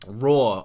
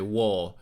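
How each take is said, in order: First: The word begins with a clear R sound. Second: The word begins with a W sound.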